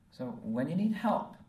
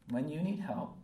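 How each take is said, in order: First: Louder and higher, leaning on need; emphatic repeat. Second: Said in the usual way. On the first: Real, not acted. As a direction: push the word need hard, first time round.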